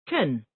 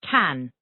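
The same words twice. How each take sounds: First: The word has a reduced, weak vowel. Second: The word has a full, clear vowel.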